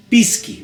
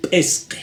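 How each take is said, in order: First: "pisqui" with plain i vowels, as written; "pisqui" in flat Spanish spelling sounds, both vowels i; naive spelling reading. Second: "Pesque" with the i lowered to e, pes-ke; correct Aymara pronunciation. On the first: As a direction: read "pisqui" as a newcomer would, pis-ki. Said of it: "va a leer". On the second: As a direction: say written pisqui as "Pesque", with e vowels. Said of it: "¿cómo se lee?". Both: Shown as a demonstration.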